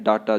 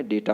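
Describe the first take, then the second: First: डाटा with a long "aa": daa-taa; wrong pronunciation. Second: डेटा with "day": day-taa; correct pronunciation. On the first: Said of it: "approach गलत है". (डाटा में पहला स्वर आ) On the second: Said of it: "क्या बोलना है". (डेटा में पहला स्वर ए) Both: Shown as a demonstration.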